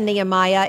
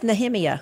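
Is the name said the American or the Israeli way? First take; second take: American; Israeli. First: The name is said with an American pronunciation. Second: The name is said with an Israeli pronunciation. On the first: This is how it is usually said at home. The speaker calls it wrong. "We say Nehemiah" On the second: This is how it is said in Israel. The speaker calls it right. "and it's Nehemiah"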